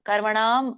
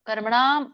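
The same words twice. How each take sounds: Both takes have the same delivery.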